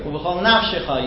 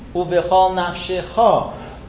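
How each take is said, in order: First: The stress falls before the last syllable. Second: The stress falls on the last syllable. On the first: The speaker calls it wrong. "you'll hear Americans saying. That's wrong" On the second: The speaker calls it right. "The stress is on the last syllable"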